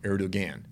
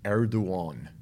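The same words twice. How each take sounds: First: The middle consonant is a hard g. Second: The middle consonant sounds like a w. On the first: The speaker calls it wrong. "It's not Erdogan" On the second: The speaker calls it right. "it's actually like a W. It's Erdogan"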